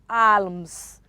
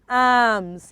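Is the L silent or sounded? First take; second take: sounded; silent. First: The L is sounded. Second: The L is silent. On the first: The speaker calls it wrong. "It is not alms" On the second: The speaker calls it right. "I'm sure is arms"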